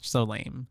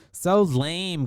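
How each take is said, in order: First: Said in the usual way. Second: "So lame" punched louder and higher; emphatic repeat. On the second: Real, not acted. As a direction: lean hard on "So lame" with raised pitch and volume. Repeats the judgment, second time harder.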